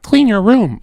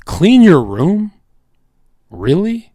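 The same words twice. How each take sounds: First: High, mocking quote of advice. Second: High, drawn-out disbelieving question; incredulous. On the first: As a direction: parrot the advice in a raised voice. Mocking Jordan Peterson's advice. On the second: Acted. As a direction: repeat it slowly, pitched up, in disbelief. Incredulous at the quoted advice.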